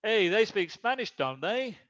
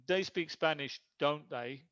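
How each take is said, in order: First: "don't they" swinging up like a real question; rising intonation. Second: "don't they" falling, a statement seeking agreement; falling intonation. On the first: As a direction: lift "don't they" at the end, really asking. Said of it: "with rising intonation". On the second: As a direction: drop the pitch on "don't they", already sure of it. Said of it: "It's falling intonation". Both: Shown as a demonstration.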